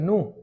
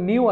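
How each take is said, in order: First: It has no y-glide, like 'noo'. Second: It has a y-glide, like 'nyoo'. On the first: This is how native speakers say it. "ওরা বলছে নু" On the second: This is how local learners usually say it. "আমরা বলতাম নিউ"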